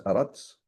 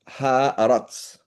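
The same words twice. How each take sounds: First: Aratz said softly, the Hebrew form, no H; a quiet model of Aratz; Hebrew way of saying it. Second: Haaretz drawn out very slowly, sounding every part. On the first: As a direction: show the sound: Aratz. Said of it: "Like this". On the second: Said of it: "Like this, Aratz". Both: Shown as a demonstration.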